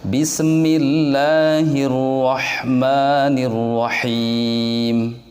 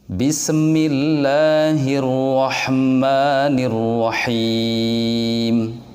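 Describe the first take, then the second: The two takes are said the same way.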